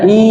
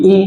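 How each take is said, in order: First: ই stretched long as a mistake; long, dragged ই; drawn-out vowel. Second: ই said short, with no stretch; a brief, unstretched ই; short vowel. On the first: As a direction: hold ই out to show the wrong way. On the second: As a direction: say ই quickly and stop. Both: Shown as a demonstration. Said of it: "টান হবে না".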